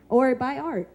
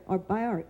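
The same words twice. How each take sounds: First: A high, laughing plug for art. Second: Said in the usual way. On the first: Real, not acted. Host urging the audience to buy art, laughing. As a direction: laugh it off as a cheeky pitch.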